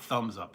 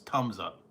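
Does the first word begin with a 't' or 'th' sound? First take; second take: th; t. First: The first word begins with a 'th' sound. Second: The first word begins with a plain 't' sound. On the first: The speaker calls it wrong. "It's not Thumbs Up" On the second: The speaker calls it right. "It's Tums Up"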